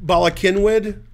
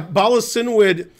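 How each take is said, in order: First: The second word starts with a K sound. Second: The second word starts with an S sound. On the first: The speaker calls it right. "Hard K" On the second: The speaker calls it wrong. "I'm pronouncing it wrong"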